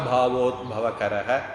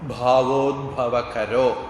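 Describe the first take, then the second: First: The word ends in a breathy 'h' sound. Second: The word ends in an 'o' sound. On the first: The speaker pauses for breath after it. "இந்த இடத்துல நாம விசர்க்கத்தை உச்சரிக்க போறோம்" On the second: It runs on into the next word. "அடுத்தது வல்லின வராதனால ஓவா மாறும்"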